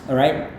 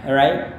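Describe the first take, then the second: The two takes are said the same way.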